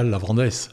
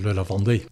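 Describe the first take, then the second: First: The final s sound is pronounced. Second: The final s sound is silent. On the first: The speaker calls it wrong. "c'est pas le Lavandès" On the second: The speaker calls it right. "On ne prononce pas le S"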